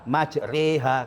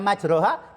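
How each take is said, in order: First: The vowel after r leans toward an e sound. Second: The vowel after r is a plain open a. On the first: "Yang terkenal kita membaca majreha" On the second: "dibaca majroha tidak masalah"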